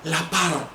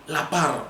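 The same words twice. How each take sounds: The two takes are said the same way.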